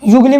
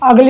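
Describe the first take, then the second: First: The word starts with a 'you' sound. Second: The word starts with an 'uh' sound. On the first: The speaker calls it wrong. "युगली मत बोलना" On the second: The speaker calls it right. "अगली होता है वो"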